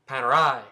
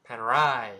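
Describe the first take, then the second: No difference in how they are said.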